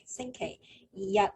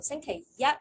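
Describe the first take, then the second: First: The last syllable carries the sixth tone. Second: The last syllable carries the first tone. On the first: The day is Sunday. "星期日 is Sunday" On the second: The day is Monday. "星期一 is Monday"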